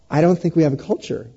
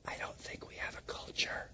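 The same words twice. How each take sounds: First: It is said loudly and clearly. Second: It is said quietly, almost whispered.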